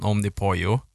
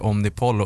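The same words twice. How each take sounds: First: Omnipollo with ll said as Y; Spanish pronunciation. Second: Omnipollo with ll said as L; common pronunciation. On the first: Telling friends how the brand should be said, Spanish pronunciation. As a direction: end Omnipollo as "po-yo". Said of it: "man ska ju säga egentligen". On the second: Telling friends how most people say the brand, L pronunciation. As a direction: end Omnipollo as Swedish "pol-lo". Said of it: "de flesta säger Omnipollo". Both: Shown as a demonstration.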